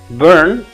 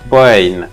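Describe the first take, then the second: First: It is said with an r-colored vowel. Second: It is said with an 'oi' vowel and no r.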